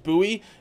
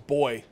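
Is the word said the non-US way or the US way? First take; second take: US; non-US. First: The word is said the US way. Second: The word is said the non-US way. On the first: "The U.S. version is buoy" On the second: "the non-U.S. version is boy"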